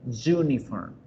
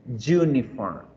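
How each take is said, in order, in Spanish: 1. La palabra empieza con un sonido 'y'. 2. La palabra empieza con un sonido 'y'.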